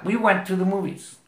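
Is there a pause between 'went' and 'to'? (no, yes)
no. Went and to are linked without a pause. The speaker calls it right. "en el habla natural no vas a pausar"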